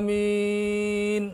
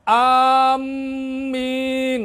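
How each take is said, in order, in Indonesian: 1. Bunyi m dibaca tunggal dan ringan. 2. Bunyi m dibaca dobel dan ditahan. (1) "Ya ringan aja" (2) "enggak usah"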